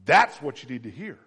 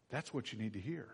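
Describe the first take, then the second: First: Loud, driving the point; preacher insisting to the congregation; loud emphatic. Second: Softer repeat; quiet echo. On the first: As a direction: say it with force. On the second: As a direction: let it sink in quietly. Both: Shown as a demonstration.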